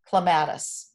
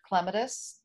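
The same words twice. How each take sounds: First: The word is said the common American way. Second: The word is said the primary, non-American way. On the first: The speaker calls it wrong. "the American pronunciation" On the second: The speaker calls it right. "I want you to notice how I'm saying the word Clematis"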